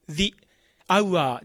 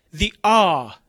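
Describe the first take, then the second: First: The hour with hour as "a-u-a"; katakana diphthong. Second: The hour as "zi aa"; merged long vowel. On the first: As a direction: sound every vowel of "hour" after "the". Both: Shown as a demonstration. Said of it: "じゃなくて".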